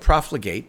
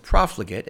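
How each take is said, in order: First: It is pronounced the way the spelling suggests. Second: It is pronounced the standard, accepted way. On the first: The speaker calls it wrong. "It looks like profligate" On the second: The speaker calls it right. "but it's profligate"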